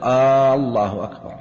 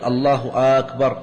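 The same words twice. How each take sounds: First: The first vowel of the first word is lengthened. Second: The first vowel of the second word is lengthened. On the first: It asks whether God is greatest. "ألا يمد الهمزة في الله، فلا يقول الله أكبر" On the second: It asks whether God is greater. "أو مد الهمزة في أكبر فلا يصح"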